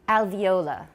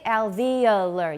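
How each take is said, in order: First: It is said in a British accent. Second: It is said in an American accent. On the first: "in British English. I believe they say" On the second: "some in American say"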